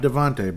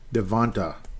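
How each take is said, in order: First: The name ends in an 'ay' sound. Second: The name ends in an 'ah' sound. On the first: The speaker calls it wrong. "not Devontae" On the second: The speaker calls it right. "but Devonta Smith"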